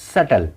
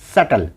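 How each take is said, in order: Both takes have the same delivery.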